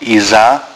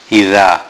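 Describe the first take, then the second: First: The consonant is a buzzing z sound. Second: The consonant is a voiced th sound. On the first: The speaker calls it wrong. "not iza" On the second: The speaker calls it right. "Note the zal, ... but idha"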